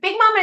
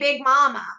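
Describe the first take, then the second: First: The two words run together as one word. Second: The two words are said separately. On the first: This is how Southerners say it. The speaker calls it right. "is just like one word in the South" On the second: This is how outsiders say it. The speaker calls it wrong. "everyone else would say"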